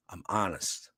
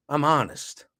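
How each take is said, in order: First: Much lower and softer, a murmured echo. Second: Said in the usual way. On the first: Shown as a demonstration. Echoing himself to viewers, low murmur. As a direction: let it sink low and quiet like an afterthought. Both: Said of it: "repeats line, second time low".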